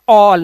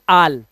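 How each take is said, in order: First: The vowel is a rounded 'aw' sound. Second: The vowel is an open 'ah' sound. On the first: The speaker calls it right. "ऑल, ना कि आल" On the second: The speaker calls it wrong. "ना कि आल"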